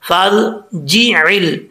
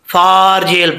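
First: The f joins straight onto r without a long vowel. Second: A long vowel is held after the f sound. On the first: The speaker calls it right. "अलीफ गिर जाएगा" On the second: The speaker calls it wrong. "अक्सर लोग समझते हैं कि अलीफ भी पढ़ा जाएगा ... ये गलत है"

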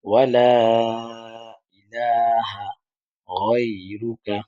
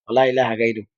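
First: The vowel of 'la' is stretched long. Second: The vowel of 'la' is kept short. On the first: The speaker calls it right. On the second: The speaker calls it wrong.

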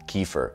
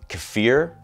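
First: It is said sounding like the name Kiefer. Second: It is said without sounding like Kiefer. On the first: The speaker calls it right. "I just learned it's kefir, which just makes me think of Kiefer Sutherland" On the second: The speaker calls it wrong. "I always thought it was pronounced kefir"

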